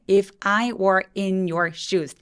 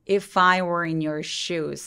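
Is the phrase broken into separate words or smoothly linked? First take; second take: broken; linked. First: Each word is said separately with breaks. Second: The words run together without any breaks. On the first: The speaker calls it wrong. "단어로 말씀하시면 안 돼요" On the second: The speaker calls it right. "소리가 끊어지지 않게 ... 꼭 연결하셔야 돼요"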